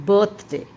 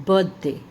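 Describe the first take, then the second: No difference in how they are said.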